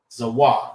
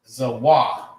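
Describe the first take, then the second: First: Zawah again, two syllables za-wah, falling on wah; Hebrew pronunciation repeated. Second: Zawah said slowly as two clear syllables, za then wah; Hebrew pronunciation. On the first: Checking the class got it, repeating Zawah carefully. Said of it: "that's how you say Ziph". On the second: Teaching the class how to say Zawah, careful and slow. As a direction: sound out Zawah, stress on wah. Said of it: "in Hebrew". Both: Shown as a demonstration.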